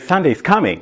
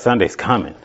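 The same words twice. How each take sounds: First: It is said in an eager, upbeat tone. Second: It is said in a weary, groaning tone. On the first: The day is looked forward to. The speaker calls it right. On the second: The day is dreaded. The speaker calls it wrong. "instead of"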